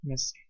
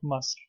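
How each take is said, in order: First: The first vowel is an 'i' sound. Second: The first vowel is an 'a' sound. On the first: This is the classical form of the word. The speaker calls it right. "the correct pronunciation in classical Arabic is Misr" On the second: This is the modern form of the word. The speaker calls it wrong. "sometimes it's pronounced in modern Arabic Masr"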